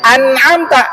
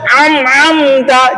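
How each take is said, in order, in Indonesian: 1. Konsonan tengahnya adalah hamzah biasa. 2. Konsonan tengahnya adalah bunyi 'ain' yang berat di tenggorokan. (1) "Sebenarnya itu kan an'amta, alif dulu baru ain" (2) "dibaca am-amta, jadi ain"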